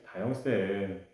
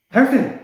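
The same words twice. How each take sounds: First: It is said in a calm, even tone. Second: It is said fast and loud, urgently.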